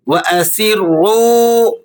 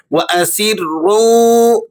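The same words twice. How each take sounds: First: Higher, slow وَأَسِرُّوا with long final waw; elongated waw. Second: وَأَسِرُّوا with the final waw drawn out a second or two; slow, stretch the end of وَأَسِرُّوا; elongated waw. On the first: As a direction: draw out وَأَسِرُّوا at the end. (وَأَسِرُّوا کو کھینچ کر بلند آواز میں) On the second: (وَأَسِرُّوا میں واو مدہ کو ایک دو second کھینچیں) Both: Shown as a demonstration. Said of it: "ایک دو سیکنڈ تک کھینچ کر پڑھنا ہے".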